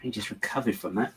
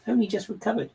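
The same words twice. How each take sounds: First: Said in the usual way. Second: High, theatrical repeat with "only" lifted; mock-dramatic echo. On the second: Real, not acted. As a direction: ham up the complaint, pitched way up.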